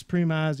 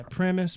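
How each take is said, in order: First: Premise as PREE-mize, long ee and long eye; premise, long vowels. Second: Premise as PREM-iss, short e and short i; premise, short vowels. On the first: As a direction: say premise rhyming with surmise. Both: Shown as a demonstration. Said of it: "I always fucking say that backwards".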